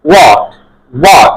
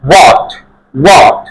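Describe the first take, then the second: Both takes have the same delivery.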